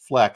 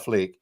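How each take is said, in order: First: The vowel is short, like 'eck'. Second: The vowel is long, like 'eek'. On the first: The speaker calls it wrong. "I've been saying this wrong" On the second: The speaker calls it right. "Pat has corrected me that it's Bella Fleek"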